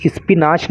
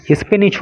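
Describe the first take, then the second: First: स्पिनाच with a long "aa" in the last syllable, "is-pi-naach"; wrong pronunciation. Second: स्पिनच with a short last vowel, "is-pi-nich"; correct pronunciation. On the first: Teacher shows students how the vegetable's name is not pronounced, स्पिनाच mispronounced with a long "naach". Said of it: "इसका जो pronunciation होता है तो". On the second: Teacher corrects students on the vegetable's name, स्पिनच pronounced with a short "nich". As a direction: say स्पिनच ending in a short "nich", not "naach". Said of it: "स्पिनच होता है". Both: Shown as a demonstration.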